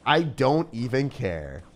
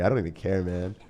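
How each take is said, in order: First: "I don't even care" stretched slow, each word leaned on; slow emphatic repeat. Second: Said in the usual way. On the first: Real, not acted. Streamer repeating his defiance to the opponent, slow and emphatic. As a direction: drag it out defiantly.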